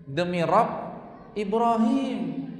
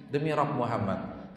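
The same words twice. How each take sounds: First: Louder, Ibrahim stretched slow and high; mock angry oath. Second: Aisyah content. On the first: Aisyah swearing crossly at the Prophet. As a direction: draw out Ibrahim with a huff. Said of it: "Tapi kalau lagi marah". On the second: Retold or imitated. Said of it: "Aisyah kalau lagi senang".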